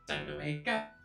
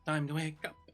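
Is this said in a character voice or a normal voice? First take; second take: character voice; normal voice. First: It is said in a put-on character voice. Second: It is said in the speaker's ordinary voice. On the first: The speaker calls it right. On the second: The speaker calls it wrong.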